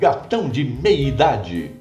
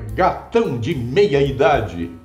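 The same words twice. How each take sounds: First: Some vowels are dropped and run together. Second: All vowels are pronounced clearly. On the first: "o editor cortou quase duas ou três vogais" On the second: "a minha está ali clara"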